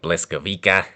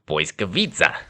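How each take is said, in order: First: The second sound is an L, ending in 'wick-a'. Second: The second sound is a W, ending in 'vitsa'. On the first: The speaker calls it wrong. "if you're just uh, looking at it straight up, it looks like Bliskawica" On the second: The speaker calls it right. "you actually pronounce it like you would a W"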